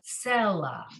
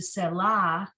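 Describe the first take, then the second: First: The stress is on the first syllable. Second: The stress is on the last syllable. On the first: The speaker calls it right. "it's selah" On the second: The speaker calls it wrong. "As opposed to"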